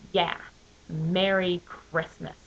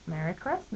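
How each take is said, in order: First: It is said with a hostile, dismissive tone. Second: It is said plainly, with no attitude.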